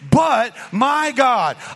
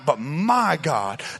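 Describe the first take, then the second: First: The stress is on "but". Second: The stress is on "my".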